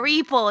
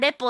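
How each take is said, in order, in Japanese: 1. 最初の母音は 'ee' のように聞こえます。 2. 最初の母音は 'eh' のように聞こえます。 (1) "でも英語圏ではリポだから" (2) "日本人側の皆さんはレポって言って"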